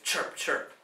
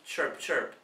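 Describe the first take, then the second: First: It is said loudly with strong energy. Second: It is said softly with little energy. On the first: The speaker calls it right. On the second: The speaker calls it wrong. "this kind of weak"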